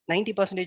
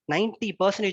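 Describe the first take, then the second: First: It is said in a flat, monotonous voice. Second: It is said with strong stress and variety. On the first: The speaker calls it wrong. "instead of saying" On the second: The speaker calls it right. "ninety percentage is a huge amount, so you can stress"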